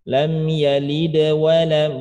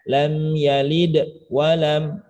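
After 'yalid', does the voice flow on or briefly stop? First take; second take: flow on; briefly stop. First: The words flow on without any break after yalid. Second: There is a brief stop right after yalid. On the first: The speaker calls it right. "Jadi bacanya lam yalid wa lam yulad" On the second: The speaker calls it wrong.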